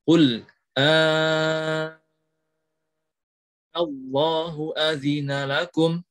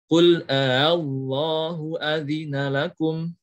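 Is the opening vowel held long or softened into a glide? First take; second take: long; softened. First: The opening vowel is held very long. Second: The opening glottal catch is softened, not lengthened. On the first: "Yang pertama dengan mat lazim. ... Enam harokat" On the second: "atau dengan tashil"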